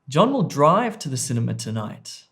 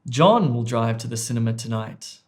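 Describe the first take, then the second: First: The stress falls on the word 'drive'. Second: The stress falls on the word 'John'. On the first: "I've put word stress or emphasis on C, drive" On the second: "It was actually on A"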